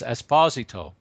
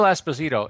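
First: The name is said with an Italian pronunciation. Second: The name is said with an anglicized pronunciation. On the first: The speaker calls it right. "it's Esposito" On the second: The speaker calls it wrong. "why they mispronounce some of the greatest names in hockey history"

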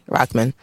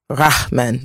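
First: The name is said with light, natural emphasis. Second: The name is said with heavy, exaggerated emphasis. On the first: The speaker calls it right. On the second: The speaker calls it wrong.

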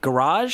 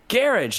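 First: It is said with an American pronunciation. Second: It is said with a British pronunciation.

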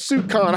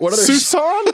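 First: It sounds like soup con, with a hard k. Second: It sounds like Susan, with a soft s. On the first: The speaker calls it wrong. "the entire time I thought it was soup con" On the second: The speaker calls it right. "Not once has anyone said it's Susan"

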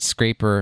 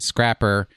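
First: The first vowel is long, as in 'cape'. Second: The first vowel is short, as in 'cap'. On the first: This is the speaker's own way of saying it. "I pronounce it Scraper" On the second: This is how most people say it. "Most people pronounce it Scrapper"

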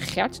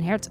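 First: The word begins with a G sound. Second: The word begins with an H sound.

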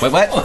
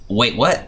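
First: It is said very fast. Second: It is said at a normal, slower pace.

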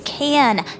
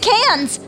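First: The word ends without any S sound. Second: The word ends with an audible S sound. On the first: The speaker calls it right. "Silent S" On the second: The speaker calls it wrong. "Now you got me saying it"

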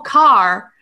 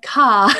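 First: The word is said with an American accent. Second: The word is said with a British accent. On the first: The speaker calls it wrong. "they would say it with like an American accent" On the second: The speaker calls it right. "no, I said car"

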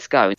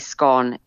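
First: It is said the southern British way. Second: It is said the northern British way.

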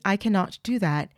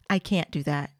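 First: The negative is said in full as cannot. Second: The negative is contracted to can't. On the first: "instead of saying"

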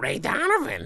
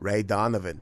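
First: It is said in a Lois Griffin voice. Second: It is said in a strong Boston accent.

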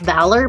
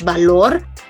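First: It is pronounced the English way. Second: It is pronounced the Spanish way.

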